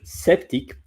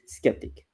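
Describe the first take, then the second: First: The word is said with French pronunciation. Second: The word is said with English pronunciation. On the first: "in French" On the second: "and in English"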